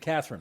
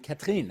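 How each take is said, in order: First: The name is given an English pronunciation. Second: The name is given a French pronunciation. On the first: "as opposed to Catherine" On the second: "I probably should be calling you Catherine"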